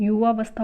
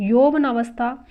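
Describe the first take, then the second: First: युवावस्था starting with short "yu"; no "na" syllable in युवावस्था; correct form. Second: यौवनावस्था said slowly with "yau-va-naa"; drawn-out yau-va-NAA-vas-tha for यौवनावस्था; wrong form. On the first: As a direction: say युवावस्था as yu-VAA-vas-tha. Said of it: "शुद्ध है". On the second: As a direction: say यौवनावस्था loudly with the "na" syllable. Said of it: "अशुद्ध है". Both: Shown as a demonstration.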